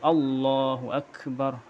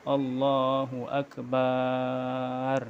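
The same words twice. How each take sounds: First: The vowel after the b is kept short. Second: The vowel after the b is drawn out long. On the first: The speaker calls it right. "tapi Allahu akbar" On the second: The speaker calls it wrong. "tidak ada mad pada ba akbar ... itu tidak boleh"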